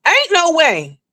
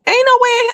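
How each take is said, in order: First: Still emphatic. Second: Emphatic disbelief. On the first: Repeats the disbelief, coming down. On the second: Emphatic disbelief about broke Carmen. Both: Real, not acted.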